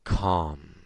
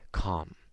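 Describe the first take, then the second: First: The word is said with strong emphasis. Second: The word is said quietly and softly. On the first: It suggests making the same experience stronger. "say the same word with more emphasis" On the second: It sets the trigger for the experience. "a quiet word like calm"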